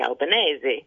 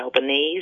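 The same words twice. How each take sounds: First: The name is said in an Italian way. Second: The name is said in an anglicised way. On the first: The speaker calls it right. "it should be Albanese" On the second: The speaker calls it wrong. "it shouldn't be Albanese"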